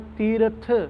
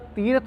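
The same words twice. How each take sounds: First: It is said with a faint 'i' sound added. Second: It is said plainly with no added vowel. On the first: The speaker calls it right. "थोड़ी जी सिहारी की आवाज़ कढ़नी है" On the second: The speaker calls it wrong. "सीधा तीरथ नहीं बोलना"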